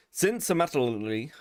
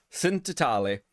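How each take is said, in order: First: "Since Amatali" said as English words; mispronounced name. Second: Hammed-up Italian accent on the name. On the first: Real, not acted. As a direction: stumble through "Since Amatali" in own accent. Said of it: "I'm definitely saying your name wrong". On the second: Shown as a demonstration. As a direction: say it like a mock Italian. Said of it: "say it in a really Italian accent".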